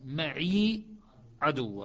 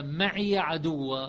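First: "معي" with silent ya, "maʕi ʕaduw"; Shu'ba reading. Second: "معي عدو" with معي slow and drawn, ya voiced "maʕiya"; Hafs reading. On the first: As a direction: say "معي" short, ya not voiced. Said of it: "شعبة". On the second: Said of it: "تكون قراءة حفص". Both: Shown as a demonstration.

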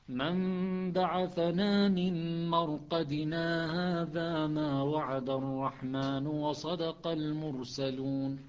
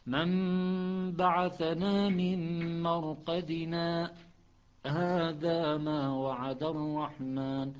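First: Slow recitation, مرقدنا run straight into هذا; joined reading. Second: Slow recitation, a held-breath stop after مرقدنا; Hafs with a pause. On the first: Teacher showing the other readers' joined reading. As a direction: join مرقدنا to هذا without a stop. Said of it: "هذا كل القراء عدا حفص". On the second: Teacher showing Hafs's pause. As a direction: stop on مرقدنا holding the breath, then هذا. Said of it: "مع حبس النفس". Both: Shown as a demonstration.

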